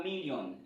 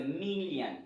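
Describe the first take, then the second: First: "million" with French ending "-yon"; French-style mispronunciation. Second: "million" ending "-yan", first syllable stressed; English pronunciation. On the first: Teacher shows learners what not to say, French-style pronunciation. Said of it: "Ce n'est pas million". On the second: Teacher corrects the French-sounding word, English model pronunciation. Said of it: "C'est million". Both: Shown as a demonstration.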